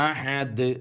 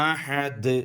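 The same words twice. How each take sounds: The two takes are said the same way.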